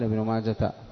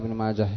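First: The name ends with a t sound. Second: The name ends with a silent-vowel h sound. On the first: The speaker calls it wrong. "الأكثر أنه لا يقال ابن ماجه" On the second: The speaker calls it right. "يوقف عليها كما يوقف على هاء السكت"

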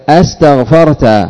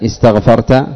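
First: The word begins with an open 'a' vowel. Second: The word begins with an 'i' vowel. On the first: It asks whether you sought forgiveness. "أستغفرت همزة الاستفهام المفتوحة" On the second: It states that you sought forgiveness. "استغفرت همزتها مكسورة همزة وصل"

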